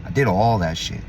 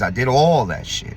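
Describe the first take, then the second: First: Said in the usual way. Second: "all" leaned on, every word slow and heavy; weighty, deliberate confession; slow stressed admission. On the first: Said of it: "repeats admission, then stresses". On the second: Real, not acted. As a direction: spell out "I did all that shit" word by word. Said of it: "repeated slower, stressed".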